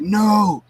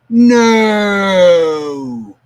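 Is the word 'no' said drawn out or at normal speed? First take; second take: normal; drawn out. First: The word is said quickly at normal speed. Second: The word is stretched out slowly, like slow motion.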